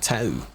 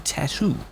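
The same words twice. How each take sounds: First: It is said quickly with the middle t dropped. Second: It is said carefully with the middle t pronounced. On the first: "You're saying it quickly, it'll probably be like tattoo" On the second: "If you're quite formal and you enunciate, every bit"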